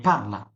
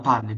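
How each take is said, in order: First: পারলা said with a final a, the right form; পারলা stressed on an a ending. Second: পারলে said with a final e, the wrong form; পারলে with an e sound at the end. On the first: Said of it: "বলতে হবে". (সঠিক রূপ পারলা, শেষে আ উচ্চারণ) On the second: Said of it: "বলা লাগবে না". (ভুল রূপ পারলে, শেষে এ উচ্চারণ) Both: Shown as a demonstration.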